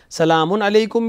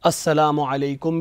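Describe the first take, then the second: First: "سلام علیکم" as "salaamun alaikum"; slow "سلام" with an un ending; tanween form. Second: "السلام علیکم" as "assalaamu alaikum"; slow "السلام" with "as" and a u ending; article form. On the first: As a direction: link "سلام" to "علیکم" through an n. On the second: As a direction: say "السلام" without any n. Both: Shown as a demonstration. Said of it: "دونوں طریقے".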